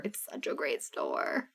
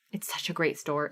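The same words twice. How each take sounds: First: Slow unvoiced whisper of the praise; hushed, slow aside. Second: Said in the usual way. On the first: Shown as a demonstration. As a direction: breathe it like a secret. Repeats line, then whispers it.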